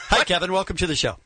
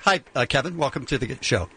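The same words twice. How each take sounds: First: Said in the usual way. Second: Low, hesitant radio welcome; fumbled greeting. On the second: Real, not acted. Host greeting a caller, fumbled and low. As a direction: let the greeting sag and stumble. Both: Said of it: "let me try that again".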